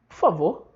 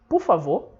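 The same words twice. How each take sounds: First: P goes straight into favor, no vowel. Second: A vowel follows P, with no final R. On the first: "O P corta o U e vai direto pro favor" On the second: "Você fala, por favor. Você também não fala esse R do final"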